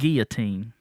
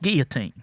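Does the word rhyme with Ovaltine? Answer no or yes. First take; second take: yes; no. First: The word is said to rhyme with Ovaltine. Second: The word is said not rhyming with Ovaltine. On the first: The speaker calls it wrong. "It's not guillotine. Like Ovaltine" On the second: The speaker calls it right. "It's guillotine"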